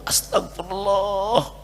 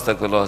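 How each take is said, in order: First: It sounds deeply remorseful and sincere. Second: It sounds quick, hurried and mechanical.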